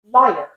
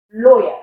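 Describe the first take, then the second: First: American liar (lawyer) with final R; liar, lawyer with open vowel, American; American accent. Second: British lawyer, "loy-uh"; British accent. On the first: Teacher contrasting lawyer with British, American accent. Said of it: "In an American". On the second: Teacher modelling lawyer for learners, British accent. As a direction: lawyer with rounded vowel, no R, British. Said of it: "In a British accent". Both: Shown as a demonstration.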